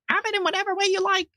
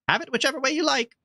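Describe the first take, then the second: First: It is said in a squeaky voice. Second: It is read in a normal voice.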